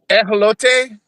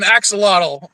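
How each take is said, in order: First: The word is said with Spanish sounds. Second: The word is said with English sounds. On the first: The speaker calls it right. "she pronounces it correctly, which is like uh, I'm gonna butcher this" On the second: The speaker calls it wrong. "in English we call it an axolotl because we don't know how to pronounce"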